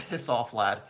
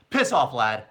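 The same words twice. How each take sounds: First: Slow, laughing through a bad British accent; British accent attempt. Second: Louder, firmer bad British accent; British accent attempt. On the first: Streamer admitting he can't do a British accent, giggling attempt. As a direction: try a British accent and crack up. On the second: Streamer retrying the line for fans, punchier British accent. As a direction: commit to the British accent this time. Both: Shown as a demonstration. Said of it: "I can't do a British accent".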